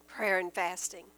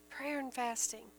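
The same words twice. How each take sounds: First: Lower-pitched, measured answer; low, solemn. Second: Much softer, near the usual pitch; hushed repeat. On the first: Preacher answering how to strengthen belief, low and solemn. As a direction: drop the pitch on "Prayer and fasting". Answer given, then repeated. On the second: Preacher repeating the answer to the congregation, hushed. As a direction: say "Prayer and fasting" softly, letting it settle. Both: Real, not acted.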